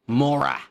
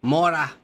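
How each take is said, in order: First: Mora said as MOR-ah, first syllable stressed; pronunciation demo. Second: Mora said again, a touch louder and falling; the other way to say Mora; Mora, a little louder, set against the first take; second pronunciation. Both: Shown as a demonstration. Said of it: "Because if it was Mora".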